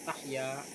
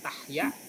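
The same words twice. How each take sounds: First: The final vowel is long. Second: The final vowel is short. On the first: "asalnya Tahya panjang" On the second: "jadi pendek ya"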